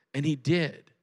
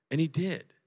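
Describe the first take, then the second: No difference in how they are said.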